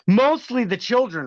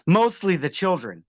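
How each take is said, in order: First: MOSTLY pitched high and punched; pointed sarcasm. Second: Said in the usual way. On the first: Real, not acted. Streamer needles Jordan Geiger about children, pointed sarcastic repeat.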